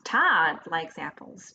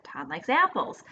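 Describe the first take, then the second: First: "Todd" stressed, rising and drawn out, the rest slow. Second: "apples" carries the main stress with a falling tune. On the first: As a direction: lean hard on "Todd" and let the pitch climb. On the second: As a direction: save the push for "apples" and let it fall. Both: Shown as a demonstration. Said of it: "we put the stress on different words".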